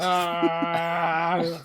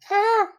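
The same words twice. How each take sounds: First: Long, loud battle yell; charging scream. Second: Short high yelp; a quick, high, loud "ah"; small yelp. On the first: Acted. Player as Krill charging at the enemy, long scream. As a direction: hold a loud, sustained "ah" as you charge. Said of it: "just charges, screaming. Not like". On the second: Shown as a demonstration. Player showing how Krill does not scream, short high yelp. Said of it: "Not like".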